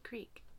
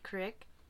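First: The vowel is long, like in 'seek'. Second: The vowel is short, like in 'sick'. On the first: This is how the speaker claims to say it. "I say creek" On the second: This is the Utah way of saying it. "I don't say crick"

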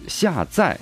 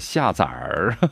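First: The second syllable has no r-colored ending. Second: The second syllable ends with an r-colored sound. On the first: It means downloading. The speaker calls it right. "下载就可以了" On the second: It sounds like giving birth to young. The speaker calls it wrong. "不能是下崽儿，这个可不能够儿化啊"

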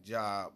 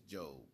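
First: The vowel is short, as in 'rob'. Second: The vowel is long, as in 'robe'. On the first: It is read the way it is spelled. The speaker calls it wrong. "It looks like Job" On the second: It is the name's actual pronunciation. The speaker calls it right. "but it's Job. You pronounce it a little different"

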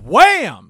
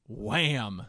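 First: The word is said loudly, with strong energy. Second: The word is said flatly, with little energy. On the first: The speaker calls it right. "Because they got the exclamation point" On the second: The speaker calls it wrong. "I didn't say that with enough gumption"

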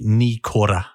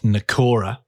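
First: The first syllable sounds like 'knee'. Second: The first syllable has a short 'nuh' vowel. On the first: The speaker calls it right. "So ni, like your knee" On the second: The speaker calls it wrong. "which is not Nakora"

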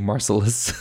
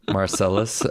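First: The name has a Dutch pronunciation. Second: The name has a usual English pronunciation. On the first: "In Holland, they say Marcellus" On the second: "Some people say it differently"

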